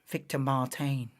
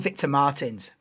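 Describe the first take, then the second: First: The name is said with a French pronunciation. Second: The name is said with an English pronunciation. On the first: "I've heard many different pronunciations of his name" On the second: "which is probably the wrong pronunciation, but it's also um, more English"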